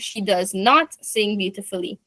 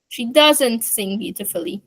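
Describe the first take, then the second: First: Does not is said as two full words. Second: Does not is contracted to one syllable.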